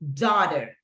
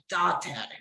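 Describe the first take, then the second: First: It is said with a standard English accent. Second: It is said with a strong Puerto Rican accent. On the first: "daughter like this is hija" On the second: "his pronunciation is really strong. So he says like daughter"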